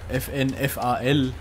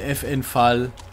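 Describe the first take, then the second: First: FAL is spelled out as separate letters. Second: FAL is said as one word, like Fall. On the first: The speaker calls it right. "richtig sagt man dazu FAL" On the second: The speaker calls it wrong. "Ich nenne sie Fall einfach"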